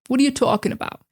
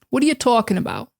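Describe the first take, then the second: The two takes are said the same way.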